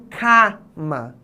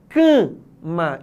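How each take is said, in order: First: The stressed first vowel is not nasalized. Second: The stressed first vowel is nasalized. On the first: The speaker calls it wrong. "e não cama" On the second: The speaker calls it right. "a gente diz cama"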